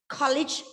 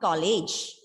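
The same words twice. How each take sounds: First: The k is said with a puff of air. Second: The k is said without a puff of air. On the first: The speaker calls it right. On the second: The speaker calls it wrong.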